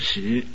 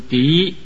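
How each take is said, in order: First: The syllable is pronounced shi. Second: The syllable is pronounced di. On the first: The speaker calls it wrong. "不是读实" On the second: The speaker calls it right. "记得这个字读敌"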